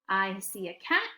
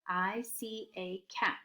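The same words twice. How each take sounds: First: It is read quickly, like talking. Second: It is read slowly, word by word.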